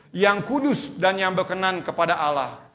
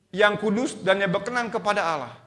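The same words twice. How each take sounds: Both takes have the same delivery.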